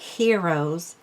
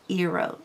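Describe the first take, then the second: First: The H and the final S are both sounded. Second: The H and the final S are both silent. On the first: The speaker calls it wrong. "So it's not heroes" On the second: The speaker calls it right. "No H, no S"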